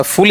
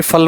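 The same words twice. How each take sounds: First: फुल with a rounded oo vowel; vowel demo. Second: फल with a short open a vowel; vowel demo. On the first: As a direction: say फुल with a clear oo. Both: Shown as a demonstration. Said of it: "फुल या फिर फल वाला?".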